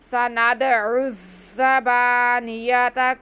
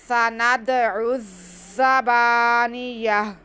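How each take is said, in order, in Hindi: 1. लफ़्ज़ 'ta' पर ख़त्म होता है, और अगले लफ़्ज़ से जुड़ जाता है। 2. लफ़्ज़ रुक जाता है, नरम 'h' की आवाज़ पर ख़त्म होता है। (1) "ऐसे भी बात दफ़ा पढ़ लेते हैं हम" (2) "गोल ता पे वक्फ करना है, तो साकिन इसे हा में बदल कर साकिन करेंगे"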